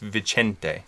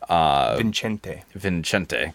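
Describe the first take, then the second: First: No extra n sound follows the first vowel. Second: An extra n sound follows the first vowel. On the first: The speaker calls it right. "It's Vicente" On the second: The speaker calls it wrong. "I put an extra N in there"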